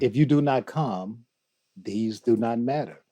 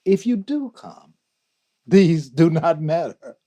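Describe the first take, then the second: First: Poem recited in a measured, even voice; measured recitation. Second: Higher, louder, rising fervour; impassioned recitation. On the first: Guest recites Rumi to the hosts, measured recitation. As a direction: recite the verse evenly, in a measured way. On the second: Guest recites Rumi's contrasting line, impassioned recitation. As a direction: lift the verse into a ringing declaration. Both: Acted.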